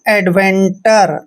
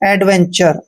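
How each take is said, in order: First: The last syllable is said with a t sound. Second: The last syllable is said with a ch sound. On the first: The speaker calls it wrong. "इनका pronunciation ऐसे नहीं करना है" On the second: The speaker calls it right. "टर नहीं पढ़ना है, चर पढ़ना है"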